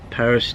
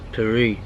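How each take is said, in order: First: It is pronounced the English way. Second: It is pronounced the French way. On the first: This is how outsiders name the city. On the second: This is how the French name the city.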